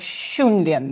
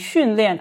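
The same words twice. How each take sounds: First: It begins with a Russian 'shch' sound. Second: It begins with a soft Mandarin 'x' sound. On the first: The speaker calls it wrong. "а как бы «щ», больше как «xunlian»" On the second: The speaker calls it right. "он произносит его как не «xunlian»"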